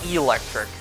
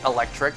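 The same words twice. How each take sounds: First: The first vowel is a long ee sound. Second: The first vowel is a short eh sound. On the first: It is the creature's name, based on an eel. The speaker calls it right. "You have to make it a big E sound" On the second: It is the ordinary word for electricity. The speaker calls it wrong. "Not electric, like, you know, electricity"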